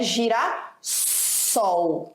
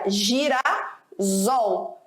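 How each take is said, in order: First: The middle consonant sounds like an S. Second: The middle consonant sounds like a Z. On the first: The speaker calls it right. "para que o S seja ali preservado e foneticamente fique correto" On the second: The speaker calls it wrong. "se houvesse essa junção, como é que ficaria?"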